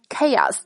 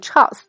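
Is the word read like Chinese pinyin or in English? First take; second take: English; pinyin. First: The word is read with English pronunciation. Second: The word is read like Chinese pinyin syllables. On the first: The speaker calls it right. "它的正确发音是chaos" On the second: The speaker calls it wrong. "千万可别按照拼音的读法把它读成chaos"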